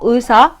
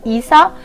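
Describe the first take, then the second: First: The word begins with a plain u sound. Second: The word begins with a plain i sound. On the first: "نمیگم ... اوسا" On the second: "نمیگم ایسا"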